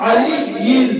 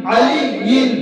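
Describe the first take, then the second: Both takes have the same delivery.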